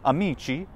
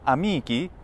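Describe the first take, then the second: First: It is said in the ecclesiastical Latin way. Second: It is said in the classical Latin way. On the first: "in ecclesiastical" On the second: "in classical pronunciation"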